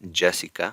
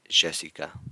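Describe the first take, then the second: First: The Y is said the Central American way. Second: The Y is said the Argentine way. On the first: "Central America" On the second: "further down toward Ar Argentina, you might hear"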